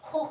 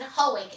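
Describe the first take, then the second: First: The name is said with a Dutch pronunciation. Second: The name is said with an English pronunciation. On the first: "It's pronounced in Dutch Hoek" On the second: "I pronounce it Hoek"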